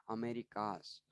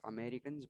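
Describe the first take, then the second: First: "Americas" said with no N, ending in -kaz; corrected word. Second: "Americans" said with an N before the final S; mistaken pronunciation. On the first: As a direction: say "Americas" with an open -kas ending. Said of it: "but I wrote is, wrote it as". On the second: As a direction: say "Americans", ending in -kans. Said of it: "I just pronounced it as Americans". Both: Shown as a demonstration.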